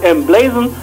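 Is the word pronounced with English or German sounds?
English. The word is said with English sounds. The speaker calls it right. "englisch ausgesprochen"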